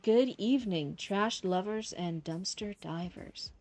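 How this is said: It is said in a mischievous, playful voice.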